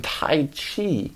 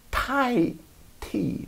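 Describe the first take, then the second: First: Tai Chi fumbled, run together fast; mispronounced. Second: "Tai Chi" said slowly, syllable by syllable, high then falling; careful pronunciation. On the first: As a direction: slur "Tai Chi" in passing. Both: Shown as a demonstration. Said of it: "There we go".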